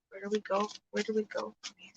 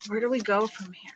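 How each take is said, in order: First: Much softer, quicker, to herself; fading mutter. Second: Said in the usual way. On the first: Real, not acted. Reader musing quietly to herself, fading. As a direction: let it fade away under the breath.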